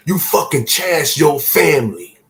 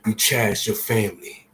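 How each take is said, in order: First: Louder, higher insistent warning; forceful repeat. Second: Said in the usual way. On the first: Real, not acted. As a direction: hammer the message home to viewers.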